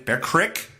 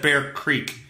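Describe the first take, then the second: First: It is said in a Pennsylvania regional accent. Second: It is said in a plain accent.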